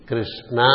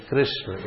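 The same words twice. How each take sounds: First: KRISHNA with a strong long final naa; South Indian Krishna. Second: KRISHNA with the final vowel barely sounded; Sanskrit Krishna. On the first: Teacher showing South Indian version, Krishna ending in naa. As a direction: lean on the open last a of Krishna. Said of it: "is a South Indian version". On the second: Teacher giving the Sanskrit form, Krishna with a light ending. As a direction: cut the last a of Krishna short. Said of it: "It is Krishna in Sanskrit". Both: Shown as a demonstration.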